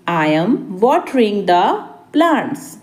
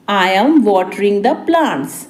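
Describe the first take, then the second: First: Deliberate, a bit soft; spaced-out repeat. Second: Said in the usual way. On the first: Shown as a demonstration. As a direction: pause before the last word. Teacher repeats translation word by word. (रुक-रुककर)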